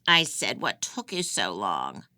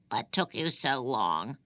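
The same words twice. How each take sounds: First: Louder, pressing the question again; insistent repeat. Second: A lightly rasped crone's question, from the dark; raspy old woman. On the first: Old prisoner repeats her demand to the confused girl, insistent. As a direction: hammer the question home, impatient. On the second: Old prisoner rasps at the girl who kept her waiting, raspy. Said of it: "she said in a raspy voice". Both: A narrator's reading.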